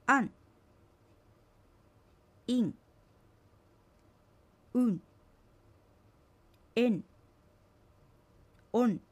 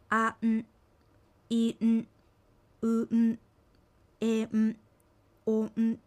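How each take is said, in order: First: Vowel runs straight into ん in one beat, as in "うん"; sounds joined. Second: Each vowel held apart from its ん, as in "う、ん"; sounds split apart. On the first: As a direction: say "おん" as one syllable, no break before ん. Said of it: "区切って発音しないように注". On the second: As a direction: cut "お、ん" into two separate beats, vowel then ん. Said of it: "区切って発音しないように". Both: Shown as a demonstration.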